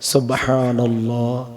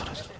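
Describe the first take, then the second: First: The phrase is said slowly and carefully. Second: The phrase is rattled off very quickly. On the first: It is said correctly and with devotion. The speaker calls it right. "আস্তে বলেন, সহি করে বলেন, সুন্দর করে বলেন" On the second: It is said carelessly, just to pile up repetitions. The speaker calls it wrong. "এক মিনিটে বলে একশো বার"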